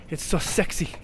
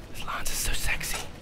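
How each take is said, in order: First: Said in the usual way. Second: Soft admiring whisper. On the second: Real, not acted. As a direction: breathe it lovingly. Admiring weapon.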